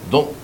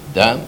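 First: The vowel is pronounced as a rounded 'o'. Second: The vowel is pronounced as an open 'a'. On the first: The speaker calls it wrong. "לא אומרים" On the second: The speaker calls it right. "למה אומרים"

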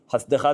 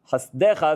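First: The word is said with a reduced shva vowel. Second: The word is said with a full e vowel. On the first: This is the form used in mid-verse. "חסדיך זה שווה" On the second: This is the form used at a pause or verse end. "חסדיך זה סגול"

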